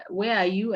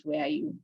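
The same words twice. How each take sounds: First: Said in the usual way. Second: Echoed much higher, softer. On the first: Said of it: "You ask them". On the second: Shown as a demonstration. Teacher imitating a child echoing a question, high and soft. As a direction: parrot the question back in a high voice. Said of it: "And they repeat".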